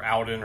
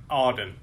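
First: "Auden" with the other first vowel; alternative pronunciation. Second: "Auden" as a first guess at the name; tentative pronunciation. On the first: Host second-guesses the author's name, alternative "Auden". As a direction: try "Auden" a second way, unsure. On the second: Host unsure of the author's name, tentative "Auden". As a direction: offer "Auden" unsure of its vowel. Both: Shown as a demonstration. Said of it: "or however you pronounce that".

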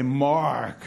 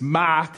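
First: "Mark" in an American way, R fully sounded; "Mark" with a strong rhotic R; MARK with hard R. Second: "Mark" as non-rhotic "Mahk"; "Mark" the Australian way, R dropped; MARK without the R. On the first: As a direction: say "Mark" as "Marrrk". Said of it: "so I'd have to say". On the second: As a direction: say "Mark" with an open AH and silent R. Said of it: "they'd kind of call me Mike". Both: Shown as a demonstration.

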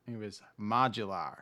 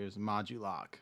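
First: "modular" said like the word modular, MAH-juh-lar; slip: "modular" with a plain -lar ending; mispronounced name. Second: "Modulok" said MAH-joo-lock, ending in -lock; corrected name. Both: Real, not acted. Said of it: "Sorry, it was Modulok".

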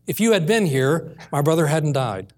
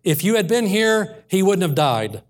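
First: Understated retelling of a grieving plea; undemanding, tearful plea. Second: Higher-pitched demand, falling at the end. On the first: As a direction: say it without any demand, gently retold. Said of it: "did not say it with a demanding tone". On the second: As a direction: confront him, pitched up on the first half. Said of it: "demanded answers". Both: Retold or imitated.

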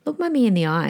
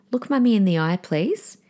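First: Firm, even, no-nonsense request; calm authority. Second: Firm, even, no-nonsense request; steady parental command without raising the voice; calm authority. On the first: Mother repeating to her child, calm firm authority. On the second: Mother to her child who won't listen, calm firm authority. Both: Shown as a demonstration. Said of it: "Can you hear that authority".

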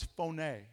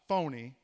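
First: "phone" said like English phone, one syllable, long o; Greek word phone. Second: "phony" with two syllables, fo-nee, slowed; not phone but phony. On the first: Preacher teaching the Greek word, clear "phone". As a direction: say "phone" as in telephone. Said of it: "not phony, as in fake". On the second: Preacher contrasting a joke word, "phony" drawn out. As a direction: say "phony" as in fake, with a little joke. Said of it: "as in fake". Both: Shown as a demonstration.

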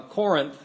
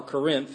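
First: Said in the usual way. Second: "Corinth" leaning on the second syllable; alternative pronunciation. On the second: Shown as a demonstration. Pastor offers another way to say "Corinth", alternative pronunciation. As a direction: say "Corinth" as kuh-RINTH. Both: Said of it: "however you pronounce it".

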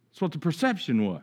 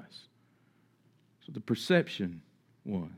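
First: Said in the usual way. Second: That's what the perception was, said slowly, softer and lower, perception drawn out; slow hushed emphasis. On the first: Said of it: "repeated slowly and quietly". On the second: Shown as a demonstration. Preacher repeating the point to the congregation, slow and hushed. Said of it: "repeated more slowly and softly".

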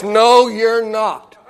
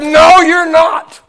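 First: Slow, stern flat denial. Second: Slow, stern and raised; higher, louder stern refusal, each word dragged. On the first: Old widow lady flatly rejecting the teen preacher, slow and stern. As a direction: lay down the law, slowly and sternly. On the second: Church lady refusing the young preacher again, louder and stern. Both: Retold or imitated. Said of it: "said with a very stern voice".

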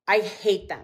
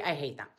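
First: Said in the usual way. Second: Dropped low and soft, apologetic; sheepish quiet admission. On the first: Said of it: "I was like". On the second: Retold or imitated. Herself admitting errands defeat, soft and sheepish. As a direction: mumble the confession under her breath. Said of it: "I was like, "I'm sorry".

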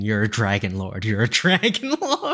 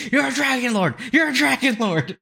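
First: Mock yell held back, rising on the repeat; retold scream. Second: High-pitched mock yell, no real volume; mock scream. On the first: Viewer yelling advice at the television, restrained mock scream. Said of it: "I was screaming at the television". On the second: Viewer screaming at the dragon lord on television, high mock scream. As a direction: imitate screaming, pitched high, laughing at the end. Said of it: "Just screaming".

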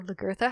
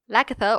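First: Lagertha in the second variant; alternative pronunciation of Lagertha. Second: Lagertha in the first variant; first pronunciation of Lagertha. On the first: Historian unsure of the name Lagertha, offering an alternative. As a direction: offer the other way of saying Lagertha. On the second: Historian unsure of the name Lagertha, offering a pronunciation. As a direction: offer one way of saying Lagertha. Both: Shown as a demonstration. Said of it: "however you wanna pronounce her name".

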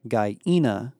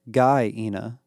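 First: Put-on "Guyena" with the accent on the second syllable. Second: "Guyena" with the weight on the first syllable; contested pronunciation. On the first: Barrett corrects Emma's pronunciation, "Guyena" accented on second syllable. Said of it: "with the accent on the second syllable". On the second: Emma says the planet's name her way, "Guyena" stressed up front. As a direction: say "Guyena" stressing GUY, not the second syllable. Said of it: "stop saying it like that". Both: A narrator's reading.

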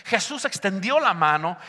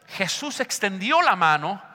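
Both takes have the same delivery.

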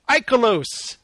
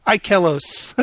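First: "Ikelos" with a weak middle, EYE-kuh-lohs; trying a pronunciation. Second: "Ikelos" with a clear middle, eye-KELL-ohs; second pronunciation attempt. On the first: Host guessing a listener's screen name "Ikelos", middle reduced to kuh. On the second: Host guessing a listener's screen name "Ikelos", middle said as KELL. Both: Shown as a demonstration. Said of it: "I'm not sure how to say that".

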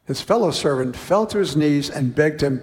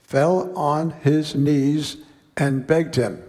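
First: Said in the usual way. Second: Each word of "Fell on his knees and begged him" slowed and set apart; slow emphatic quote. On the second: Shown as a demonstration. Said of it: "Notice the same words for both".

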